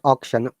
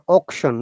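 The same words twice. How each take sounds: First: The first vowel is not an 'o' sound. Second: The first vowel is an 'o' sound. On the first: The speaker calls it wrong. "not auction" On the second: The speaker calls it right. "Remember auction, A U becomes O sound here"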